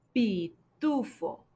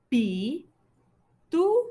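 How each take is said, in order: First: Said in the usual way. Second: Pitufo split into PI, TU, FO with long pauses; teacher sounding out "Pitufo" in three separate beats; syllable by syllable. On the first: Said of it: "Escucha a ver si está al principio". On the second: Shown as a demonstration. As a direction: say "Pitufo" one slow syllable at a time. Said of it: "tiene la sílaba fo al final".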